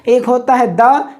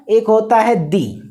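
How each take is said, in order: First: "द" said short, like "duh". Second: "दी" said long, like "dee". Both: Shown as a demonstration. Teacher contrasting the two sounds of the. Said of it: "दो तरह से होता है".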